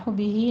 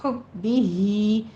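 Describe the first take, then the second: First: حبی with a light, undoubled b; wrong soft reading. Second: Slow حبی ہی, pressing on the bb; hard doubled b, drawn-out ending in حبی ہی; firm doubled b. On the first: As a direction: show the mistake: حبی said softly without stress on b. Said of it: "حبی نہیں". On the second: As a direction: model حبی ہی with held bb and long hee. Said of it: "با کے اوپر تشدید ادا کیجیے". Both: Shown as a demonstration.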